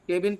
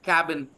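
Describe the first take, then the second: First: The first vowel sounds like 'keh'. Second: The first vowel sounds like 'cab'. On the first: The speaker calls it wrong. "केबिन पढ़ने की आदत है ना, ये गलत है भाई. This is wrong pronunciation" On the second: The speaker calls it right. "The right- correct pronunciation is cabin"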